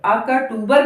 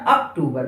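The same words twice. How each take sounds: First: अक्टूबर with a vowel after क; full क syllable. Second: Said in the usual way. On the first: Shown as a demonstration. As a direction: say अक्टूबर as "a-ka-toobar". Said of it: "नहीं लिखते हम लोग". (अक्टूबर में क को पूरा बोलते हुए) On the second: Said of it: "बोल कर देखिए".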